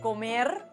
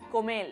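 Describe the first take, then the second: First: It ends with the standard r sound. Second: It ends with an l in place of r.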